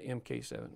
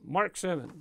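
First: The letters M and K are spelled out. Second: The abbreviation is said as the word Mark. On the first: The speaker calls it wrong. "That's not MK7" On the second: The speaker calls it right. "That's how they enunciate that over there in Europe"

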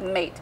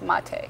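First: It is said as one syllable, like English 'mate'. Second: It is said as two syllables, 'mah-teh'. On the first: The speaker calls it wrong. "It looks like mate" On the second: The speaker calls it right. "but it's mate"

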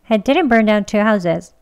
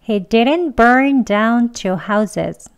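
First: The sentence is said at a fast pace. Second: The sentence is said at a slow pace. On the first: "이번엔 좀 빨리 할게요" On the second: "천천히 두 번 합니다"

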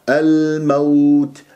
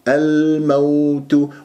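Both takes have the same delivery.

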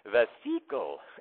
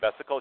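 First: It is said in a Russian accent. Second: It is said in a plain, ordinary accent. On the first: "My molecular bio prof was Russian, ... she would say vesicle" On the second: "instead of saying vesicle"

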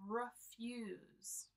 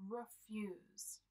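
The two takes are said the same way.

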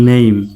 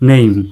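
First: The vowel glides from e to i. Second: The vowel glides from e to i.

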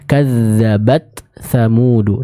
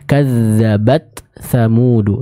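First: The t sound is pronounced clearly and separately. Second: The same.

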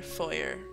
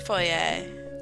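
First: The word is given an ordinary pronunciation. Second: The word is given a fancy pronunciation.

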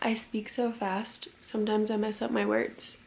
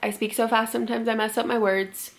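First: The sentence is said slowly, with clear pauses. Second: The sentence is said quickly, with few pauses. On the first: The speaker calls it right. "I could be like" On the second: The speaker calls it wrong. "instead of saying it like that"

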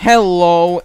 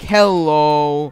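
First: The greeting ends crisply and brightly. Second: The greeting trails off flatly at the end. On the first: "Before you were like" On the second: "he started speaking with the dots at the end"

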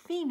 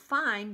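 First: The word is said differently from its spelling. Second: The word is read the way it is spelled. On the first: The word means the end. The speaker calls it right. "but you pronounce it fine" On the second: This is how the word looks on the page. The speaker calls it wrong. "It says fine"

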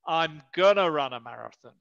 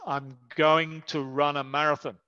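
First: 'Going to' is merged into 'gonna'. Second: The word 'to' is reduced to a 't' sound. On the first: "dicen gonna" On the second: "se reduce la pronunciación del to, la palabra to, y sueno como t"

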